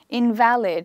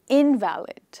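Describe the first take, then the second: First: The stress is on the second syllable. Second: The stress is on the first syllable. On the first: Something is no longer applicable. "here I stress on the syllable in the middle" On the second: A person who is very sick. "With the stress on the first syllable"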